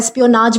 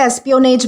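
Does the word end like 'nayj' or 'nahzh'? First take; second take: nahzh; nayj. First: The word ends with a 'nahzh' sound. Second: The word ends with a 'nayj' sound. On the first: "एस्पियोनाज भी कहा जाता है" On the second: "इसे एस्पियोनेज भी कहा जाता है"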